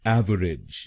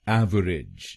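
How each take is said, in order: Both takes have the same delivery.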